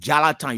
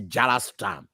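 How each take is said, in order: First: The name has no s sound in the middle. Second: The name has an s sound in the middle. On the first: The speaker calls it right. "Like Jalatan" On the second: The speaker calls it wrong. "you don't say Jalastan"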